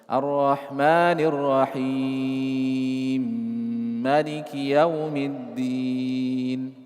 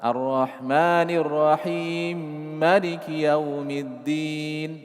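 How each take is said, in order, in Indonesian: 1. Bacaan mad ditahan dengan panjang sedang. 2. Bacaan mad hanya ditahan sebentar. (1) "Empat harokatnya agak panjang, bertengahan" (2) "Itu qasar"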